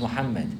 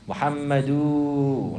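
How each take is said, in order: First: The name ends cleanly with no added vowel. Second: The name ends with a long added vowel. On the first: The speaker calls it right. "his name is Muhammad" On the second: The speaker calls it wrong. "if somebody put a big elongation on the end of it, it doesn't even belong there"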